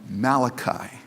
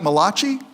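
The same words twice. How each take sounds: First: The name is said with a plain English pronunciation. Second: The name is said with an Italian-sounding pronunciation. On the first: The name is taken to be Hebrew. The speaker calls it right. "he's not Italian, he's Hebrew" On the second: The name is taken to be Italian. The speaker calls it wrong. "it's not pronounced that way"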